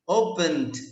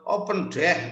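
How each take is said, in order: First: The ending is a light, barely heard d sound. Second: The ending is a full separate syllable 'deh'. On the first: The speaker calls it right. "ada d-nya" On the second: The speaker calls it wrong. "bukan open deh, bukan gitu ya"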